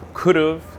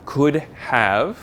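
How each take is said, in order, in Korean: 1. "have"는 "of"처럼 약화됩니다. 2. "have"는 완전하게 발음됩니다.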